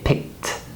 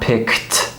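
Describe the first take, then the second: First: The k sound has no puff of air. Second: The k sound has a strong puff of air. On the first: The speaker calls it right. "We say picked" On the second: The speaker calls it wrong. "The K, the C K sound is not aspirated. It's not k, right? It's not picked"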